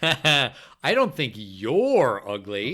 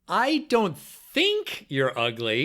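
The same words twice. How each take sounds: First: The word "you're" carries the emphasis. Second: The word "think" carries the emphasis. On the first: "so who's ugly?" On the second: "each time you're going to emphasize a different word"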